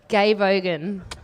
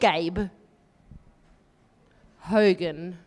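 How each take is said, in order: First: The two names run together quickly without pause. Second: A clear pause separates the first and last name. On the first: "if you say it too fast" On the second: "I have to leave a pause between Gabe and Ogan"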